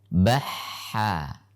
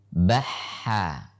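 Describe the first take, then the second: No difference in how they are said.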